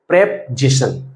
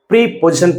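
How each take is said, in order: First: The first syllable is a short 'prep' sound. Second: The first syllable is a long 'pree' sound. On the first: The speaker calls it right. "इसका correct pronunciation करें प्रेपजेशन" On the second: The speaker calls it wrong. "अधिकांश बच्चे इसको प्रीपोजिशन पढ़ते हैं जो कि गलत है"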